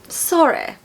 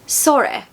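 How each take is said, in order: Both takes have the same delivery.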